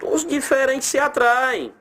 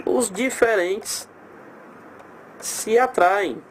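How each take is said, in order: First: Said in the usual way. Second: Os diferentes se atraem said slowly, each word apart; dictating the rule slowly for students; slow, spelled out. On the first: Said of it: "Os diferentes se atraem (repeated slowly)". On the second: Shown as a demonstration. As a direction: lay out Os diferentes and se atraem one at a time, unhurried. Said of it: "repeats the rule slowly".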